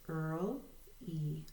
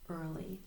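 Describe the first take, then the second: First: "Earl, E" as two separated syllables. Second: Said in the usual way. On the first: Shown as a demonstration. Teacher showing a two-syllable word, syllable by syllable. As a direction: split early into "Earl", pause, "E". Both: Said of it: "it's a two-syllable word".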